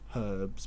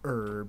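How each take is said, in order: First: The word starts with an H sound. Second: The word starts without an H sound. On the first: This is how the speaker's side says it. The speaker calls it right. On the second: This is how Americans say it. The speaker calls it wrong.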